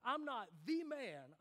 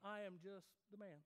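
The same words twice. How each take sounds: First: "the" stressed as "thee", slow and loud. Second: "the" thrown away, softer before "man"; unstressed THE. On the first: Preacher contrasting the articles, slow emphatic THE. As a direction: punch "the" to mean the one and only man. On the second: Preacher contrasting the articles, modest unstressed THE. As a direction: play down "the", just an ordinary man. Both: Shown as a demonstration. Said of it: "There's a difference between".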